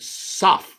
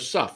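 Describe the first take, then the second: First: The syllable has an open 'aw' vowel, 'soff'. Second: The syllable has a short 'uh' vowel, 'suff'. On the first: "S O F F" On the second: "U S U F"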